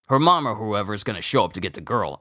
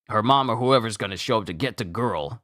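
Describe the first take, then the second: Both takes have the same delivery.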